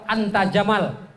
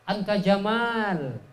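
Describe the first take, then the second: First: The vowel after the m is short. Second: The vowel after the m is long. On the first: You are a camel. The speaker calls it wrong. "engkau onta katanya" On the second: You are very handsome. The speaker calls it right. "Mimnya panjang"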